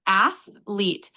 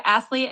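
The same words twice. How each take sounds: First: "athlete" as ath, pause, leet, slowly; syllable breakdown. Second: Said in the usual way. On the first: Shown as a demonstration. Tutor repeats the breakdown for a learner, "athlete" in two slow separate syllables. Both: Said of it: "could you break down pronunciation again".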